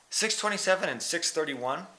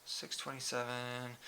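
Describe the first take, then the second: First: Said in the usual way. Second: Soft mumble reading a number; muttered under breath. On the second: Real, not acted. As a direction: mutter it quietly to yourself. Reading splits aloud to himself.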